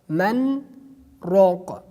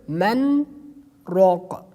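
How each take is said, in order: The two takes are said the same way.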